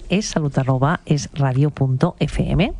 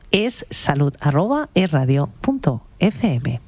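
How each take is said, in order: First: It is said at normal speed. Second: It is said a little more slowly.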